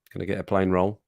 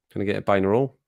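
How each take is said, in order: First: Said in the usual way. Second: "plain roll" blurred into pie-in-a-roll, rising at the end; "plain roll" with the L lost, sounding like pie 'n' a roll; Scottish mishearing. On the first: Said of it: "Which one was which there?". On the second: Shown as a demonstration. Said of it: "it sounds like pie in a roll".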